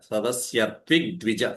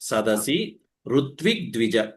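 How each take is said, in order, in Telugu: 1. మొదటి రెండు పదాలు కలిసిపోయాయి. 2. మొదటి రెండు పదాలు విడిగా ఉంచబడ్డాయి.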